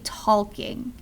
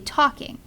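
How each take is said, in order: First: The word is said with an audible L sound. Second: The word is said with no L sound. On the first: The speaker calls it wrong. "You don't say talking" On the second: The speaker calls it right. "You say talking"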